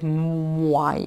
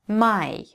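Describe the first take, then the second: First: A w glide comes before the vowel. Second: It is said plainly, with no w glide. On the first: The speaker calls it wrong. "Мы не будем читать my, это просто, ну, не звучит" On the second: The speaker calls it right. "Мой будет my"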